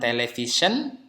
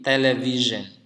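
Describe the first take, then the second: First: The middle consonant is a voiceless sh sound. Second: The middle consonant is a voiced zh sound. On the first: The speaker calls it wrong. "bukan television" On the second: The speaker calls it right. "tapi television"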